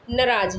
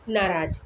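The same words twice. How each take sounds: First: नाराज़ with a short first vowel, "na-RAAJ"; Punjabi-style mispronunciation. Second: नाराज़ with both vowels long, "naa-raaj"; correct pronunciation. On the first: Teacher imitating how Punjabi speakers say it, short-vowel mispronunciation of नाराज़. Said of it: "Punjabi लोग नाराज़ बोलने लगते हैं". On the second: Teacher giving the correct word, long-vowel pronunciation of नाराज़. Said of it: "जबकि शुद्ध शब्द क्या है". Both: Shown as a demonstration.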